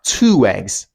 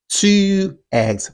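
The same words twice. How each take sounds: First: The two words are joined by a w sound. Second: The two words are said separately. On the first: "this sound can also be used in connected speech" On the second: "two eggs will sound like"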